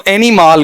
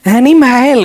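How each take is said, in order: First: एनिमल pitched up, ending in "MAAL"; एनिमल with a long aa for the joke; joke male version. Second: एनिमल high and slow as "eni-MAIL"; एनिमल with a long ai for the joke; joke female version. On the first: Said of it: "अगर मैं ऐसा पढ़ूं". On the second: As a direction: say एनिमल with a drawn-out "male" ending. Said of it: "कौन पढ़ेगी". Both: Shown as a demonstration.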